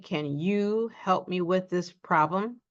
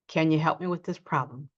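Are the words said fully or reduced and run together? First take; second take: full; reduced. First: Each word is said fully, with a full 'you'. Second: The words run together with a reduced 'you'. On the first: The speaker is emphasizing. "We don't say, ... unless we're emphasizing" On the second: It is ordinary speech. "we reduce you ... We simply say"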